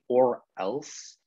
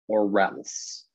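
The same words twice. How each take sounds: First: The two words are said separately. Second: The two words are run together smoothly. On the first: The speaker calls it wrong. "I hear you say or else" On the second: The speaker calls it right. "put these words together"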